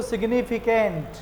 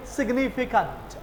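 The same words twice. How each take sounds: First: सिग्निफिकेंट with a hard ट ending; common Indian way. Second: सिग्निफिकेंट with soft नट ending; British way. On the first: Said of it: "साधारण लोग क्या बोलते हैं". (आम भारतीय उच्चारण) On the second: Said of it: "वो बोलेंगे". (अंग्रेज़ी ढंग से) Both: Shown as a demonstration.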